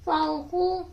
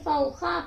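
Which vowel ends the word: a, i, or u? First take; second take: u; a. First: The word ends in an u vowel. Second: The word ends in an a vowel. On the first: The speaker calls it wrong. "नहीं पढ़ेंगे" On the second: The speaker calls it right. "बल्कि फौखा पढ़ेंगे"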